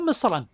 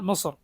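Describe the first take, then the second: First: The word ends with an added -an sound. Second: The word ends without an added -an sound. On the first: It means any land at all. "തൻവീൻ കൊടുത്തു പറഞ്ഞാൽ ഏത് നാടും എന്നാണ് അർത്ഥം" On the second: It means the specific country Egypt. "തൻവീൻ പൊതുവെ നൽകാത്ത രൂപത്തിൽ പറഞ്ഞാൽ"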